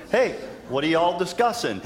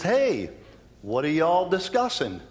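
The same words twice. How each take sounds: First: A touch more Southern, Hey leaned on; easygoing Southern hello, hammed a little; Southern Jesus. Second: Casual Southern greeting, lightly voiced; Southern Jesus. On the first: Preacher redoing Jesus' question in mock Southern accent. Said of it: "Jesus is Southern, by the way". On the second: Preacher voicing Jesus to the two men, light Southern accent. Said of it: "In my version, Jesus is Southern".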